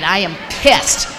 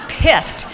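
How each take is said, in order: First: Slow seething. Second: "pissed" shouted high and loud, falling hard; angry shout. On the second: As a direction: bark out "pissed" in a real burst of anger. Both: Real, not acted.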